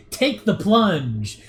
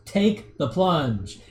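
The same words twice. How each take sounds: First: Drawn-out, dopey take the plunge; stupid slow delivery. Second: Slow deadpan take the plunge; flat deadpan line to the lens, slow; deadpan to camera. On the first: Streamer imitating a YouTuber goading a debate opponent, slow and dopey. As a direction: stretch it out dumbly, slow. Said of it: "he says it in, like, a stupid way". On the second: Streamer quoting the YouTuber looking into the camera, slow deadpan. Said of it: "He looks at the camera and goes". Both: Retold or imitated.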